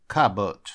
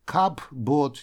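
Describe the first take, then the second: First: "cupboard" as kabot, no p, first syllable punched; correct, silent p. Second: "cupboard" split as cup-bord, p sounded; wrong, p pronounced. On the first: Teacher showing how this word is pronounced, "cupboard" with silent p. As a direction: run "cupboard" together as cub-ud, loud first syllable. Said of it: "Так произносится это слово". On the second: Teacher showing learners the mistake, "cupboard" with audible p. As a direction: slowly say "cupboard" as two words, cup and board. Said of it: "буква P не произносится". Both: Shown as a demonstration.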